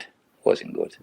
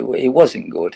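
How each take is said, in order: First: Low, whispered repeat of It wasn't good; muttered under breath. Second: Said in the usual way. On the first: Real, not acted. Ex-player repeating his verdict on his spell, whispered to himself. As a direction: drop to an unvoiced murmur, as if to himself.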